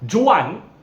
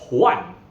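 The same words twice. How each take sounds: First: It begins with an English J sound. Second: It begins with a breathy H-like sound. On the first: The speaker calls it wrong. "if you read it in English as Juan" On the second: The speaker calls it right. "is actually pronounced as Juan in Spanish"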